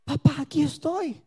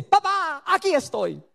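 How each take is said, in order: First: Soft, humble reply to God; tender answer. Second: High bright papá, then settling; a little girl popping out of hiding; child's reply. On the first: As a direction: answer the father softly. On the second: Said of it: "ella sale y dice". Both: Retold or imitated.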